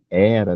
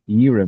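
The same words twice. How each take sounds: First: The first vowel is an open 'eh' sound. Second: The first vowel is a close 'ee' sound. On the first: The speaker calls it wrong. "a gente não fala como no português de era" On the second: The speaker calls it right. "Então a gente fala era mesmo"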